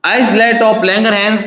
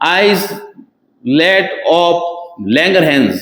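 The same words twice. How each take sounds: First: Slow dictation. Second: Islet of Langerhans, each word stretched very slowly; drawn-out term. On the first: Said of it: "teacher repeats term, very slow". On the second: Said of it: "teacher drills the term slowly". (शब्द "islet of" को बहुत धीरे खींचकर बोलना) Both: Shown as a demonstration.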